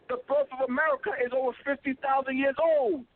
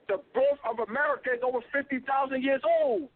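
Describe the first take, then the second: No difference in how they are said.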